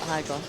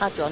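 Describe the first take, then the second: First: The first syllable sounds like 'hide'. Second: The first syllable sounds like 'had'. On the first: The speaker calls it wrong. "not Hydron" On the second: The speaker calls it right. "Hadron, not Hydron"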